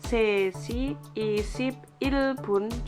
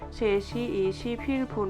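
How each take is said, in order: First: It is said slowly, broken into separate syllables. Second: It is said quickly, with syllables run together. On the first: A beginner is still learning it. The speaker calls it wrong. "dipenggal-penggal kayak gitu" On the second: This is how native speakers say it. The speaker calls it right. "orang Korea ngomongnya cepet"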